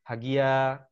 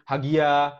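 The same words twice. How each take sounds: First: The name is called on a middle pitch. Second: The name is called on a high pitch.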